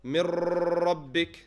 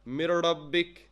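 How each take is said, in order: First: The r sound is repeated several times. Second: The r sound is a flipped tongue tap. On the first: "this does not mean you repeat the ra" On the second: "flip your tongue"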